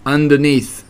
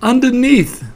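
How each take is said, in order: First: Small reply from under someone, near normal pitch; underneath voice. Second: High-pitched squeal from beneath; underneath voice. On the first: Piglet answering Pooh from underneath him, mild underneath voice. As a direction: answer mildly as if from beneath. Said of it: "in an underneath sort of voice". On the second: Piglet answering from under Pooh, high squashed voice. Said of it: "in an underneath sort of way". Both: A narrator's reading.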